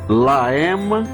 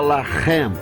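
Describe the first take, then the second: First: The middle h sound is left out entirely. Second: The middle h sound is pronounced strongly. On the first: "eliminando o som da consoante" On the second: "aqui eu carrego na voz"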